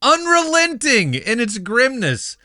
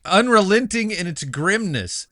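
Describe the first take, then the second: First: "Unrelenting" pitched very high, stretched for drama; heightened stress on UNRELENTING. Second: "unrelenting" raised in pitch, read emphatically; stress on unrelenting. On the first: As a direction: hammer home "Unrelenting" with theatrical high emphasis. Repeats the review line for emphasis. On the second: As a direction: read out "unrelenting" with measured weight. Dramatic review, line repeated for emphasis. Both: Shown as a demonstration.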